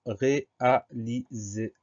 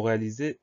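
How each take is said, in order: First: "réaliser" slowly broken into ré, a, li, ser; syllable by syllable. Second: Said in the usual way. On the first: Shown as a demonstration. Teacher introducing the next dictation word, syllable by syllable. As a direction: separate each syllable of "réaliser", drawn out. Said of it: "Première syllabe". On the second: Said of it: "Le mot réaliser".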